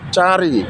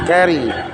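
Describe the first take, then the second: First: The word begins with a ch sound. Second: The word begins with a k sound. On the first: This is how the spelling looks when read letter by letter. "Ditulis cari" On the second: This is how the word is actually pronounced. "dibaca carry"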